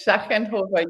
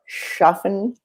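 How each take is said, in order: First: "Schaffenhofer" said the German way, softer, with a falling ending; correct pronunciation. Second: "Schaffenhofer" said with an American accent and a rising, unsure ending; American-accented name. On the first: Shown as a demonstration. Guest correcting the host's try at her name, native pronunciation. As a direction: calmly model "Schaffenhofer" the native way. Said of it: "Did I say it right?".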